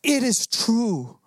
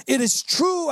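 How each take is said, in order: First: Slow, weighty "It is true." with each word spaced out; slow and solemn, every word given its own weight; dying declaration. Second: "It is true," rising much higher in an urgent plea; climbing high on "true," a pleading cry; dying declaration. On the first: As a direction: lay down "It is true." slowly like a final vow. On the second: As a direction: lift "It is true," up high, begging to be believed. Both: Retold or imitated. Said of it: "they go".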